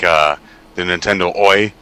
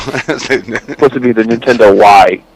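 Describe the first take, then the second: First: "Oi" said like the punk shout oy; Oi pronunciation. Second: "Y" said as the letter why, slowly; "Y" read like the letter name; Y pronunciation. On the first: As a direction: say "Nintendo Oi" with a hard oy. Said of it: "It was supposed to be like". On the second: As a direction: spell out "Nintendo Y" as the letter Y. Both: Shown as a demonstration.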